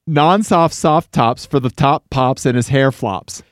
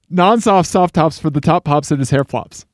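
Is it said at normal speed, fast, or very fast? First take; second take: fast; very fast. First: It is said fast. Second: It is said very fast.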